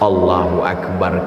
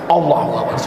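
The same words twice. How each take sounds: First: It is recited slowly with full breaths. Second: It is rushed quickly in one breath. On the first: The prayer is performed with devotion. The speaker calls it right. "dibaca pakai nafas" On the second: The prayer is performed carelessly. The speaker calls it wrong. "ayat satu nafas"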